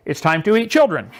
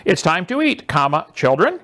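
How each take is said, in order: First: Put-on eat run straight into children; no comma. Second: Put-on a gentle call to the kids; comma pause. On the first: A teacher reading it as if the kids get eaten. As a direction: say it as if the children are dinner. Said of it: "You think maybe those have different meanings?". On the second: A parent calling the children to dinner, with a pause. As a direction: pause after eat, then children. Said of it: "The bottom line has twenty-six letters". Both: Shown as a demonstration.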